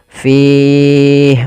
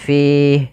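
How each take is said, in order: First: The long vowel is held for four beats. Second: The long vowel is held for two beats. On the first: "empat harokat" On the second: "dua harokat"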